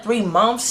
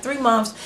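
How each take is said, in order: First: Mild disbelief, voice rising on "months"; incredulous question. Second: Said in the usual way. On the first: Retold or imitated. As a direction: ask it back like you can't believe it. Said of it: "She was like". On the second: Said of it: "I said, like".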